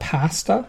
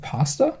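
First: It is said in a Canadian accent. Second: It is said in a non-Canadian accent.

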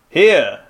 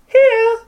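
First: It is said in a put-on masculine voice. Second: It is said in a put-on feminine voice. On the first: The speaker calls it wrong. "did you do the masculine voice for the girl" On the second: The speaker calls it right. "that was good"

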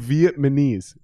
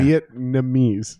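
First: The n and m sounds are swapped around. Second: The n comes before the m sound. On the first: The speaker calls it wrong. "You're flipping it around, dude. You're saying Vietnamese" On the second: The speaker calls it right. "It's Vietnam. Yeah. Vietnamese"

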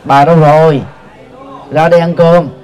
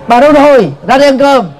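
First: It is said softly and gently. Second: It is said in an irritated, harsh tone.

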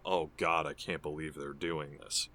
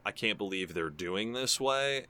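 First: It sounds cringing and disgusted. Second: It sounds amused and delighted.

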